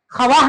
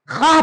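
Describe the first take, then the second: First: ख्वाह said as kha-vaah; wrongly sounded vav. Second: खाह with long aa and no v; silent vav. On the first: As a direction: sound the v in ख्वाह as its own syllable. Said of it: "नहीं पढ़ते हैं". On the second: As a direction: say खाह as one syllable, khaah. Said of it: "पढ़ते हैं". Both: Shown as a demonstration.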